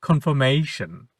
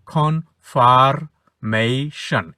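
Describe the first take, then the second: First: "কনফার্মেশন" said whole as kon-fo-mei-shon; silent R. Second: "কনফার্মেশন" very slowly, broken as kon-far-mei-shon; syllable by syllable. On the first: Teacher models the rule, r before m dropped. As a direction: leave out the r in "কনফার্মেশন". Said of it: "আর এর উচ্চারণটা হবে না". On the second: Teacher spells out the example, syllables drawn apart. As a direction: break "কনফার্মেশন" into separate syllables, r shown. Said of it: "এটা ছিল". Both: Shown as a demonstration.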